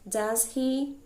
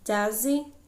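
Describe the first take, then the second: First: It is said at a normal, careful pace. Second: It is said quickly, with the words run together.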